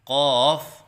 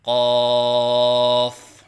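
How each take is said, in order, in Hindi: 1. लंबा स्वर पिच में ऊपर-नीचे लहराता है। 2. लंबे स्वर की पिच एक समान रखी जाती है। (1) "आवाज़ में लहराव सा पैदा करते हैं, ये गलत है" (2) "तीन अलिफ के बराबर लंबा करके पढ़ें"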